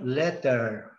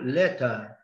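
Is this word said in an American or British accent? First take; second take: American; British. First: It is said in an American accent. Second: It is said in a British accent. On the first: "Em inglês americano" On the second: "a pronúncia do inglês britânico"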